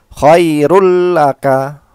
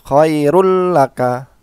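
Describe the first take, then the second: No difference in how they are said.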